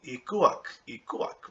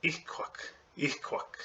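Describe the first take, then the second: First: "Ikuak" read as spelled, the way people wrongly say it; common misreading. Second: "Ikuak" said softly, almost voiceless, as it is really pronounced; correct pronunciation. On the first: Retold or imitated. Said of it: "they'll say". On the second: Shown as a demonstration. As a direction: show the true "Ikuak" gently. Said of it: "It's actually".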